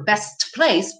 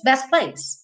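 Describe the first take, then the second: First: BEST PLACE with a clear T; careful "best place", every consonant sounded; obstructing T. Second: BEST PLACE as bes-place; smooth linked "best place", no T; swallowed T. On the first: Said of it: "Porque ia ser um obstáculo". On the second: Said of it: "Ele comeu o T aqui". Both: Shown as a demonstration.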